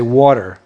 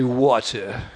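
First: It is said in an American accent. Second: It is said in a British accent. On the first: "And I say water" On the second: "In England they say water"

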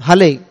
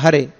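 First: The middle consonant is an L sound. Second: The middle consonant is an R sound. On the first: The speaker calls it wrong. "You naturally chant Hale" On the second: The speaker calls it right. "not Hare"

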